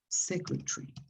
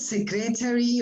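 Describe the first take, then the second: First: The stress falls on the first syllable. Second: The stress falls on a later syllable. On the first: The speaker calls it right. "the first syllable is secretary" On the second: The speaker calls it wrong. "It's not secretary or something like that"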